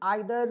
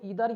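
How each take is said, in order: First: The word begins with an 'eye' sound. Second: The word begins with an 'ee' sound. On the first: "दोनों pronunciation इसका सही है" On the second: "इसको इधर या फिर नीदर भी पढ़ सकते हैं"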